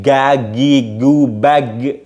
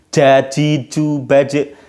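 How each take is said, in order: First: The consonant is made with the tongue back. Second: The consonant is made with the tongue tip. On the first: "kalau dari pangkal jadi gagigu bag" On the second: "kalau pakai ujung lidah jadinya j"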